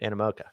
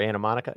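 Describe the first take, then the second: First: The name ends with the sounds 'moca'. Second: The name ends with the sounds 'monica'. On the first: The speaker calls it right. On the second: The speaker calls it wrong.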